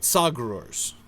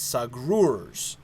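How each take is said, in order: First: The stress is on the first syllable. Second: The stress is on the second syllable. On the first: The speaker calls it wrong. "not Sagrurs" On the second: The speaker calls it right. "Stress on the second syllable"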